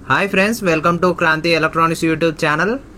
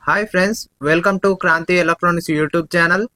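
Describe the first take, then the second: First: Background noise is left unfiltered, with no echo. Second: Background noise is filtered out, with no echo. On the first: "ఈ microphone noise cancellation ఆఫ్లో ఉంది" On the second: "noise cancellation ఆన్లో ఉన్నప్పుడు"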